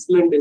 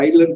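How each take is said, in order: First: The word is said as is-land, with s. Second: The word is said as eye-land, no s. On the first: The speaker calls it wrong. "உச்சரிக்கிறது இஸ்லாண்ட் estate" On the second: The speaker calls it right. "ஐலாண்ட் போ"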